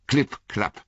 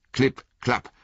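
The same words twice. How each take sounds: First: Klipp, klapp sounded out high as hoofbeats. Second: Klipp, klapp echoed high like hooves; second hoofbeat klipp klapp. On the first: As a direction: tap out the klipp klapp of hooves, higher. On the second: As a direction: repeat the hoof sound. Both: A narrator's reading.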